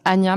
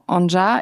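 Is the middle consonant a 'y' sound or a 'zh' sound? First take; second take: y; zh. First: The middle consonant is a soft y sound. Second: The middle consonant is a zh sound. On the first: This is the usual way the name is said. "normalement ça se prononce Anya" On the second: This way the name sounds punchier. "je trouve que ça a plus de poigne"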